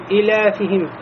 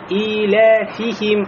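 First: The vowel after f is cut very short. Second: The vowel after f is a full i. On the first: The speaker calls it wrong. "кясра очень короткая" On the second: The speaker calls it right. "Должно быть «иля фихим»"

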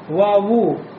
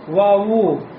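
Both takes have the same delivery.

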